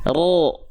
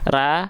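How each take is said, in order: First: The vowel is thick and dark, like o. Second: The vowel is thin and bright, like a. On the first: The speaker calls it right. "angkat pangkal lidahnya yang asalnya ra menjadi ro" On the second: The speaker calls it wrong. "ra itu tipis, pangkal lidahnya nggak naik"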